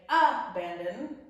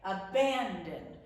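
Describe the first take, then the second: First: The stress is not on the middle syllable. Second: The stress is on the middle syllable. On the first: The speaker calls it wrong. "we don't say abandon" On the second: The speaker calls it right. "We put the emphasis on the middle syllable"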